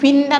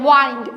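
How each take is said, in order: First: The vowel is a short 'i' sound. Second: The vowel is a long 'eye' sound. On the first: It means moving air. "Moving air ആയിട്ടുള്ള അതിനെ" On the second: It means to twist. "ഹൈ sound വന്നല്ലേ"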